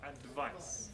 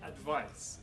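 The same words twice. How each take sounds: First: The middle consonant sounds like a V. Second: The middle consonant sounds like a V.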